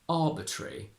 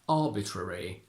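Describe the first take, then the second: First: The schwa is dropped, leaving a single R. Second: A schwa is pronounced before the final syllable. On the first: "if you decide to remove the schwa in this case, we don't do a double R" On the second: "the schwa is still optional, so you can say it"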